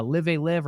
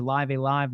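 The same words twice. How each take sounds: First: "Live A Live" rhymed with "give a give"; short-i pronunciation. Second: "Live A Live" rhymed with "five a five"; long-i pronunciation. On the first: Host trying one reading of an uncertain game title, "Live A Live" with short i's. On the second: Host offering the other reading of the game title, "Live A Live" with long i's. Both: Shown as a demonstration. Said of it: "not a hundred percent sure how it's pronounced".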